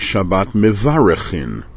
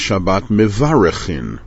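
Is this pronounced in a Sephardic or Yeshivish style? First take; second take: Sephardic; Sephardic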